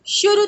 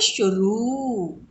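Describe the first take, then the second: First: The final vowel is short. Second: The final vowel is long. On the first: The speaker calls it wrong. "शुरू तो नहीं बोलते ना" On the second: The speaker calls it right. "क्या बोलते हैं"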